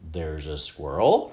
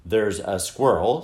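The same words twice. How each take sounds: First: Slow question, "squirrel" swooping up at the end; rising, questioning "squirrel?"; puzzled repeat. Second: Slow, word by word; slowly spelled out for a listener; slow, pointed. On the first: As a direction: echo it back as a puzzled question. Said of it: "repeated her father". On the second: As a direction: point at each word as you say it. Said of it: "speaking more slowly, as if she were pointing at each word". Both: A narrator's reading.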